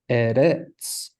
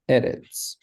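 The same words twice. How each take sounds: First: The stress is on the second syllable. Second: The stress is on the first syllable. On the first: The speaker calls it wrong. "We would put the uh, emphasis on the resh" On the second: The speaker calls it right. "the stress is on the first syllable"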